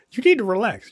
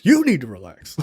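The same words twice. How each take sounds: First: Higher-pitched imitation of someone urging calm; acted-out plea to relax; mock calming. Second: Indignant retort with "You" punched; stress on YOU. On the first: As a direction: lift the pitch, as if talking someone down. Girlfriend calming him, acted out. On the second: Retold or imitated. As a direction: lean hard on "You", throwing it back. Retort throwing the words back.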